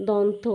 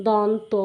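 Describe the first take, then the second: Both takes have the same delivery.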